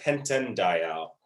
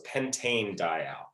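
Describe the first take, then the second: First: The first word ends in a short 'an' sound. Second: The first word ends in a long 'ane' sound. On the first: The speaker calls it wrong. "so it's not pentan dial. That just sounds weird" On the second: The speaker calls it right. "So you actually keep the E on the end"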